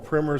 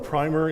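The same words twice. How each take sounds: First: It is said with an American pronunciation. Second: It is said with a British pronunciation. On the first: "In America, we call it a primer" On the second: "the English call it a primer"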